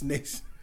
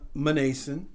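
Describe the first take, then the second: First: The name starts with an N sound. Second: The name starts with a sounded M. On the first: The speaker calls it right. "N-A-Y-S-O-N, Mnason. ... It's Mnason" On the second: The speaker calls it wrong. "It's not Mnason"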